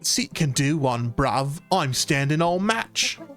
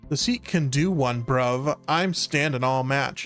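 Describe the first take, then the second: First: It is spoken in a put-on British accent. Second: It is spoken in an American accent.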